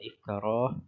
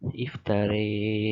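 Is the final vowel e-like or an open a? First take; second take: open a; e-like. First: The final vowel is an open a. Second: The final vowel leans toward an e sound. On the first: "asalnya kita baca iftarah" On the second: "pada Imam Hamzah kita akan baca dengan iftari"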